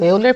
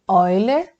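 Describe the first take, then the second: First: The name is said with a Brazilian Portuguese pronunciation. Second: The name is said with its original foreign pronunciation. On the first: This is how a Brazilian speaker says it. "Estou pronunciando Euler porque eu sou brasileira" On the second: This is how the name is properly said. "mas se fala Euler"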